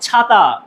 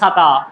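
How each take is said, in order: First: The first consonant is released with a breath puff. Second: The first consonant is plain, without a breath puff. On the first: The speaker calls it right. "রাইট" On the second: The speaker calls it wrong. "নট"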